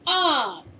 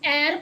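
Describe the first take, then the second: First: The vowel is an open 'ah' sound. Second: The vowel is not an open 'ah' sound. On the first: The speaker calls it right. "ए की आवाज आ जाएगी आ" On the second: The speaker calls it wrong. "एर पढ़ेंगे, नहीं पढ़ेंगे ना"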